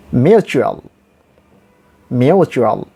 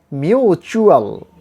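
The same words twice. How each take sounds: First: MUTUAL with a short, light chu in the middle; reduced u. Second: MUTUAL drawn out with a tense choo in the middle; wrong long oo. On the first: Teacher models the right word, reduced u. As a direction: say "mutual" with the oo eased off. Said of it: "we have to liquidate somewhat". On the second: Teacher shows what not to say, wrong long oo. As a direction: stretch the oo in "mutual", slow and exaggerated. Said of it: "Not mutual". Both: Shown as a demonstration.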